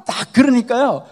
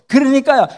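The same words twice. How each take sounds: First: Said in the usual way. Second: A loud, higher, falling 그러니까요; loud emphasis. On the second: Real, not acted. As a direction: shout 그러니까요 to seize attention. Preacher builds up to the scene.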